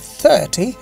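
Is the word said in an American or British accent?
British. It is said in a British accent. "the 30 is the British accent"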